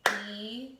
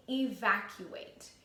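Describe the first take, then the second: First: "Evacuate" split as e-vac-u-ate, syllable by syllable; syllables chopped. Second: Said in the usual way. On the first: Shown as a demonstration. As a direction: chop "Evacuate" into its chunks. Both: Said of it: "Try to do it with me".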